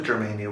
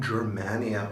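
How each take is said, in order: First: Germania with "main" as in mainly; long-a pronunciation. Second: Germania with "man" as in manic; short-a pronunciation. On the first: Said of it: "What do you think?". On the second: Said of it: "Or is it Germania". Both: Shown as a demonstration.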